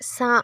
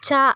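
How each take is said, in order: First: The consonant is said soft and mild. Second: The consonant is said hard and pressed. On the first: It is written with S in English. "சட்டிலாக மெல் ஒரு மைல்டாக சொல்கிறதுனால" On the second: It is written with CH in English. "அழுத்தி சொல்கிறப்போ"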